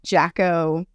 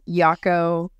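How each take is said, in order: First: The word begins with a J sound. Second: The word begins with a Y sound. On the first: "mispronounce as Yako or Jacko" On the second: "A lot of people mispronounce as Yako"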